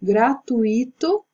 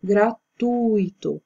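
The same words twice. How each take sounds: First: "Gratuito" stressed on the i, gra-tu-Í-to, slow; wrong stress. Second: "gratuito" stressed on tu, gra-TU-i-to; correct stress. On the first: Teacher shows students the wrong stress, stressed i. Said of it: "por que é que tá esse acento no i". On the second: Teacher gives students the correct stress on tu. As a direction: land "gratuito" on the syllable tu. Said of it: "a forma correta na pronúncia é o tu". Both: Shown as a demonstration.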